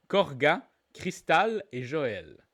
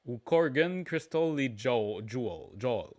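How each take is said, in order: First: English surnames given French vowels; deliberate French accent, names spaced out. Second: Surnames switched to English pronunciation; English accent, drawn out and sinking lower. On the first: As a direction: read the names as if they were French. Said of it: "Je l'ai dit avec l'accent français". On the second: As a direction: say the names as an English speaker would. Same names, now in English pronunciation. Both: Shown as a demonstration.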